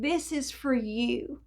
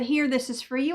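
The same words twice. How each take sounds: First: Softer and slow, tenderly meant; the neighbor's soft, kind words; gentle slow offer. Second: Said in the usual way. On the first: Retold or imitated. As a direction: say it quietly, like a gift. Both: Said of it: "Even the way that my neighbor said it".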